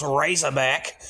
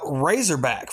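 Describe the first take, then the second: First: Razorback in a hammed-up Australian accent; a poor mock Australian Razorback, rising at the end. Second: Said in the usual way. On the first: Host jokingly renaming the film, mock Australian accent. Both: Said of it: "my poor Australian accent".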